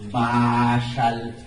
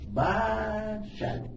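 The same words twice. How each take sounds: First: The first vowel is not high-toned. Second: The first vowel has a high tone. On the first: "Si le quitáramos el acento diría Bashal" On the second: "con el acento dice Bashal"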